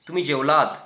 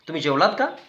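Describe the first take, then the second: First: It has a flat tune. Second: It has a questioning tune.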